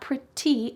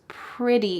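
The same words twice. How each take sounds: First: The middle consonant is a clear T. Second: The middle consonant sounds like a soft D. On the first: The speaker calls it wrong. "It's not pretty" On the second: The speaker calls it right. "it's pretty in American English"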